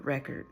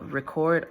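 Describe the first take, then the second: First: "record" as the noun, REK-erd; stress on first syllable. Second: "record" as the verb, ri-CORD; stress on second syllable. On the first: Reader weighing two readings, "record" stressed on first syllable. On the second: Reader weighing two readings, "record" stressed on second syllable. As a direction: say "record" with a long stressed COR. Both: Shown as a demonstration.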